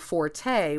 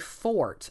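First: It is said as two syllables, for-tay. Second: It is said as one syllable, like fort. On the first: It is the way the musical term is said. "they're allowing forte, which is, as you said, the musical term" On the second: It refers to a person's strength. "you typically say fort. I mean, the accepted or the correct"

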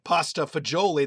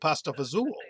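First: The second word is said in full, fagioli. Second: The second word is shortened to fazool. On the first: This is the standard Italian pronunciation. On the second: This is the Calabrian dialect pronunciation.

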